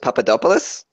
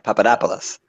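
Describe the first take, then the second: First: The stress falls on a syllable other than 'dop'. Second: The stress falls on the syllable 'dop'. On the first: The speaker calls it wrong. "I put the stress on the wrong thing" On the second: The speaker calls it right. "like Indianapolis"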